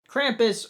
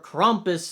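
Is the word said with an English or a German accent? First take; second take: English; German. First: The word is said in a plain English accent. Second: The word is said in a German accent.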